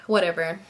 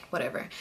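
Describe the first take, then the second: First: Said in the usual way. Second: Much softer, lower dismissive whatever; dismissive mutter. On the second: Retold or imitated. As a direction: mutter it away under your breath.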